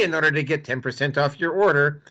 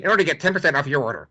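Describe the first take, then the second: First: Said in the usual way. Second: Rapid-fire, lightly voiced pundit; a hint of a fast-talking pundit pitch; Ben Shapiro voice. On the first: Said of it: "But do it in my Ben Shapiro voice". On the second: Shown as a demonstration. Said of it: "do it in my Ben Shapiro voice".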